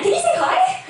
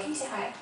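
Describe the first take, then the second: First: Much higher and louder, laughing through it; bubbling over with delight; excited laughing question. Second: Softer, gentler echo of the question; soft repeat. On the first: Friends excitedly ask the dying mum to greet Jesus, laughing. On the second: Friends repeat their request to the mum, softly. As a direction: say it again quietly, almost to yourself. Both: Retold or imitated. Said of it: "we were actually really excited".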